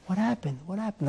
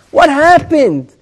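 First: Much softer, sleepy and unbothered; barely above a murmur, calm and modest; humble man woken, answering calmly. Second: Higher, slow and reproachful; What happened? stretched in reproach; preacher lamenting, pointed and reproachful; indignant demand. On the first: Retold or imitated. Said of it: "Like, very calmly". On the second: Acted. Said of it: "the person changes his tone of voice".

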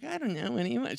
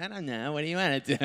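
First: Put-on a light, higher, breathy-free girlish voice, a bit softer; a hint of a coy girlfriend; girly date voice. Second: Mock dopey reply. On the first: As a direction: mimic her coy indecision lightly. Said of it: "She really didn't talk that way, but for this story, she did". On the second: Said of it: "She really didn't talk that way".

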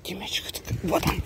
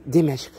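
First: Whispered teasing question; whispering. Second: Said in the usual way. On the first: Real, not acted. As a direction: whisper it to tease the dog. Teasing dog, whispered repeat.

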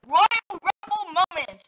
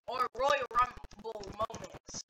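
First: Slow, full-voiced proclamation; big title announcement. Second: Low, soft and slow; subdued musing. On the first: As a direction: proclaim the title with drawn-out showmanship. Then proclaims the same title. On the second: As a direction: try out a title quietly to yourself. Tries out the title quietly. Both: Real, not acted.

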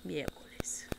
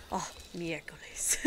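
First: Yeah, miércoles whispered softly. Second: Miércoles muttered low and soft like oh my God; muttered exclamation. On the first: Shown as a demonstration. Savouring favourite Spanish word, whispering miércoles. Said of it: "at least it sounds nice". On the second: Retold or imitated. Walking in the kitchen, softly muttering miércoles like oh my God. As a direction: sigh out Oh, miércoles as a mild curse. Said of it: "like, almost, like "Oh my God" kind of thing".

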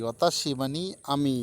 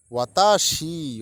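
First: Said in the usual way. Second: ওয়াতাশি stretched slowly and louder, falling at the end; slow model word. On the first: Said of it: "teacher glosses the word". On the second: Shown as a demonstration. Teacher models ওয়াতাশি for students, slow and loud. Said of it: "teacher models word before gloss".

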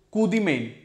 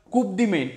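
First: कू दी मेन with कू as koo, p silent; कू दी मेन modelled correctly for students; correct pronunciation. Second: कूप said with the final p sounded, mispronounced; कूप pronounced with the p, as the teacher's slip; wrong pronunciation. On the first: Shown as a demonstration. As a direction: say कू दी मेन the French way, no p. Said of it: "कू, not कूप". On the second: Real, not acted. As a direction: say कूप with a clear p at the end, the wrong way. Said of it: "कूप नहीं बोलते इसको".

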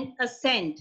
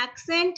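First: "accent" said like ascent, uh-SENT, with no K; ascent pronunciation. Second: "accent" said AK-sent, opening on a K sound; accent pronunciation. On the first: ("accent" ਨੂੰ "ਅ-ਸੈਂਟ" ਬੋਲੋ, ਕ ਤੋਂ ਬਿਨਾਂ) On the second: ("accent" ਨੂੰ "ਐਕ-ਸੈਂਟ" ਬੋਲੋ) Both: Shown as a demonstration. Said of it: "ਇਹ ਦੋਨਾਂ ਦਾ pronunciation ਬਿਲਕੁਲ ਡਿਫਰੈਂਟ ਹੈ".

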